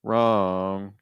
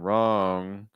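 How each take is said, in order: Both takes have the same delivery.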